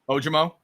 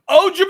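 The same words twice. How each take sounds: First: It is said flatly, without excitement. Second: It is said loudly and excitedly.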